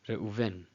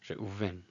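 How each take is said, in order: The two takes are said the same way.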